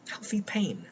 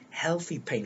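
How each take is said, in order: First: "healthy pain" breathed as an unvoiced whisper. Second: Said in the usual way. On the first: Shown as a demonstration. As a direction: let "healthy pain" fall away into a whisper. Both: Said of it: "repeats phrase to stress it".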